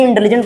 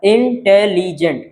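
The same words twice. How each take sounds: First: Said in the usual way. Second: intelligent slowly split into four beats, इं-टे-लि-जेंट; syllable by syllable. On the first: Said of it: "intelligent को पढ़ें". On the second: Shown as a demonstration. Teacher counting syllables for students, intelligent slowly in four separate pieces. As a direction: sound out intelligent slowly, one syllable at a time. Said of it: "चार flow में निकल रहा है".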